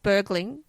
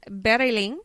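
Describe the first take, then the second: First: The name is said with an English pronunciation. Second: The name is said with a Swedish pronunciation. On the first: "For everyone else in the world, they pronounce it Bergling" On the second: "but I'm not allowed to because I have a Swedish boyfriend"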